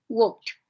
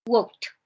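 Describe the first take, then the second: First: The ending sounds like a t. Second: The same.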